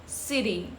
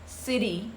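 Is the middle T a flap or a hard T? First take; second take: flap; flap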